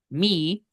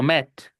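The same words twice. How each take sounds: First: "me" as a drawn-out MEE; long EE. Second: "met" with a short open EH. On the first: Teacher contrasting me with met, long EE. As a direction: hold "me" on a long English EE. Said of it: "porque yo puedo decir". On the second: Teacher contrasting met with me, short E. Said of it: "porque digo met". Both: Shown as a demonstration.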